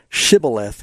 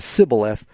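First: Shibboleth with an initial SH sound; "sh" pronunciation. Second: Sibboleth with a plain S at the start; "s" pronunciation. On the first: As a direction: say Shibboleth, opening on a clear "sh". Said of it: "if they couldn't say Shibboleth". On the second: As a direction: say Sibboleth, "s" in place of "sh". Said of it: "they were killed because they pronounced it". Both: Shown as a demonstration.

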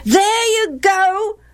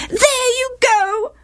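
First: Put-on high, drawn-out childish taunt; boys chorusing. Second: Very high, drawn-out wail. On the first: Other boys echoing their mother's reproach, chorusing. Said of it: "the other boys chorused". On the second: Wife reproaching Gilead for siding with Jephthah, wailing. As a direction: wail it as an aggrieved wife, stretching the words. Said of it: "wailed Gilead's wife". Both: A narrator's reading.

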